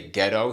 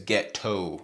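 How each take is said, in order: First: The T is soft and barely pronounced. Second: The T is crisp and clearly accentuated.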